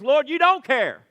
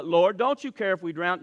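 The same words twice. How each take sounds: First: "Lord, you don't care" loud, higher, falling flat as an accusation; as a statement. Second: "Lord, don't you care if we drown?" with a questioning rise at the end. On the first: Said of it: "And the statement is". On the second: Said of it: "what they said reads like a question". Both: Shown as a demonstration.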